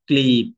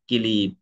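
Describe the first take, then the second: First: The opening consonant cluster is kept together. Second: A vowel splits the opening consonant cluster.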